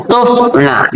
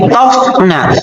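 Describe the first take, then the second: First: "tufna" with a u in the first syllable, said slowly; "tufna", u vowel before the f, as the correction; corrected reading. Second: "tofna" with an o in the first syllable; "tofna", o vowel before the f; not this reading. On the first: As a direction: say "tufna" slowly and higher, with a clear u. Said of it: "tapi tufna". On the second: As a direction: say "tofna" with an open o, as the rejected reading. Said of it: "dibacanya bukan lagi tofna". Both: Shown as a demonstration.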